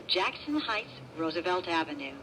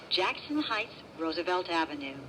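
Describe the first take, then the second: No difference in how they are said.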